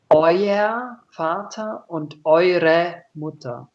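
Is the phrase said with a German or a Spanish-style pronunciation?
Spanish-style. It is said with Spanish-style pronunciation.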